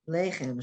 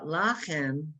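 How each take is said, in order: First: The first vowel sounds like 'ay'. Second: The first vowel sounds like 'ah'. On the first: The speaker calls it right. "That yud gives you that Y sound, lay" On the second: The speaker calls it wrong. "So you saw lachem"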